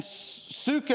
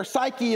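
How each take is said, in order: First: "psyche" said soo-kay; Greek pronunciation. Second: Said in the usual way. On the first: Shown as a demonstration. Preacher recapping Greek words for life, "psyche" pronounced soo-kay. Repeats Greek form beside English form.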